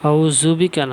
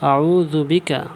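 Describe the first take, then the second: First: The consonant is a buzzing z sound. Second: The consonant is a soft dh sound. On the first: The speaker calls it wrong. "না" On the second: The speaker calls it right. "জিবাটা উপরের দাঁতের সঙ্গে"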